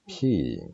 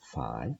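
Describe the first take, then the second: First: The word begins with an aspirated p. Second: The word begins with an f sound. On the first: "in ancient Greek p" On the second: "in English phi"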